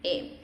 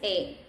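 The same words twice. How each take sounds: First: The vowel is a short, open 'eh' sound. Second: The same.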